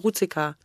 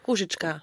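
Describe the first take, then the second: First: The name is said with plain German sounds. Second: The name is said with Czech-style sounds. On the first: The speaker calls it wrong. "jemand, der kein Russisch hat, sagt immer Ruzicka" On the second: The speaker calls it right. "ist ein bisschen schwierig auszusprechen"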